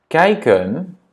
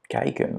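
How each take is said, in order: First: Said in the usual way. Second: "kijken" whispered softly after a normal take; whispered repeat. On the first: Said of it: "teacher models word twice". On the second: Shown as a demonstration. Teacher whispers the word for the learner to echo. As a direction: breathe "kijken" without voice. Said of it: "repeat whispered".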